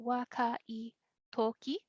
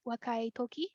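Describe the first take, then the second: First: Wakai said slowly, then a pause before toki; slow breakdown. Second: Said in the usual way. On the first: Shown as a demonstration. Teacher breaks the example down.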